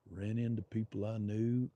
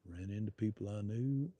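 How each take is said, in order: Both takes have the same delivery.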